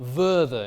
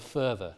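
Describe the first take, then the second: First: The word begins with a buzzing v sound. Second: The word begins with a hissing f sound. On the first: "Voicing of initial fricatives" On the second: "instead of"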